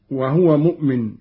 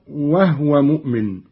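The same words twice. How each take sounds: First: Said in the usual way. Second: وهو as "wahwa", no vowel on the ha; silent-vowel ha. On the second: Shown as a demonstration. Teacher repeating it in Qalun's reading, وهو with sukun on ha. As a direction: run the h of وهو straight into wa. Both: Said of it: "بالإسكان أيضًا".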